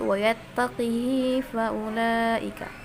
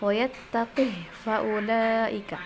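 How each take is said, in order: First: The h is followed by a lengthened i vowel. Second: The h is said with no vowel after it. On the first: "mengkasrahkan qaf dengan haknya dan pakai silah" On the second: "sukun haknya"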